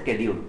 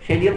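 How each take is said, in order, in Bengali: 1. শব্দটি 'sk' ধ্বনি দিয়ে শুরু হয়। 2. শব্দটি 'sh' ধ্বনি দিয়ে শুরু হয়। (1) "আমেরিকানরা বলে" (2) "ব্রিটিশরা বলে"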